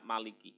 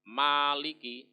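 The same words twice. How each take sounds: First: The first vowel is said short. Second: The first vowel is held long. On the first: It means the one who reigns as king. "Kalau ma-nya pendek itu yang merajai" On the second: It means the one who owns. "panjang ya"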